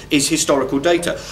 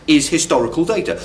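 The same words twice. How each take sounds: The two takes are said the same way.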